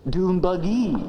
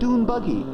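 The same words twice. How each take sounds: First: The stress falls on an unusual syllable. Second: The stress falls on the usual syllable. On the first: The speaker calls it wrong. "silly things like uh, dune buggy" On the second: The speaker calls it right. "instead of"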